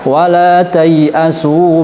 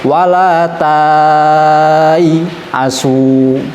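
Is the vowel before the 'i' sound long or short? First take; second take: short; long. First: The vowel after 'ta' is kept short. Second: The vowel after 'ta' is drawn out long. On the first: The written alif is treated as not there. The speaker calls it right. "justru dibaca pendek" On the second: The written alif is treated as a long vowel. The speaker calls it wrong. "kalau kita tidak belajar ilmu gharib, hanya sampai pada tajwid"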